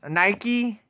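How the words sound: It is said the American way. "in America, we pronounce it that way"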